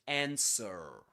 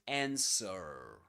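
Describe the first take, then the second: First: It is said in an American accent. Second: The same.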